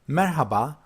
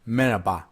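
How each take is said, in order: First: The h sound in the middle is pronounced. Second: The h sound in the middle is dropped. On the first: It is said to strangers, formally. "Formal style, you may hear this from all people you don't know" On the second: It is said to people one knows, informally. "or if for the people you know"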